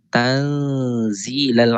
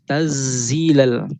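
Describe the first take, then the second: First: The n sound is half-hidden and nasal. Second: The n sound is dropped entirely. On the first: The speaker calls it right. "Dia di tengah-tengah" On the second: The speaker calls it wrong. "tak boleh hilang terus"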